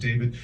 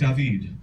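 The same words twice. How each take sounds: First: The name has a plain English pronunciation. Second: The name has a Spanish pronunciation. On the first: The speaker calls it wrong. "they butcher it" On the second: The speaker calls it right. "That's how they pronounce it in my village, mi barrio"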